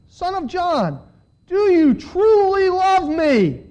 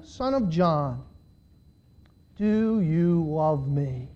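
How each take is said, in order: First: High, slow, pleading question; impassioned questioning. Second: Low, soft, very slow question; grave questioning. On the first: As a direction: press the question, stretched out and pitched up. Jesus asking again, more intensely. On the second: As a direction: ask it gently, drawn out and low. Third, grave question, read aloud. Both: A narrator's reading.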